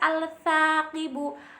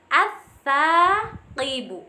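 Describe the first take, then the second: First: The L is pronounced before the S. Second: The L merges into a doubled S. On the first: The speaker calls it wrong. "tidak bisa dibaca al-saqibu" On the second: The speaker calls it right. "harus dileburkan menjadi as-saqibu"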